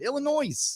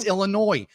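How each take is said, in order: First: The final S is pronounced aloud. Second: The final S is not pronounced. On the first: The speaker calls it wrong. "because there's an S" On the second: The speaker calls it right. "The S is silent"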